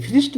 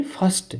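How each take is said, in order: First: "फिस्ट" said as "firist", with short i; wrong pronunciation. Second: "फर्स्ट" with a schwa, not short i; correct pronunciation. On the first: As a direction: say "फिस्ट" with an "ih" vowel and a light r. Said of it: "फिस्ट नहीं बोलेंगे". ("फिस्ट" को इ की मात्रा से गलत बोलना) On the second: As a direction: say "फर्स्ट" with an "uh" vowel. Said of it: "यहाँ बोलेंगे फर्स्ट". ("फर्स्ट" में अ की आवाज़) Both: Shown as a demonstration.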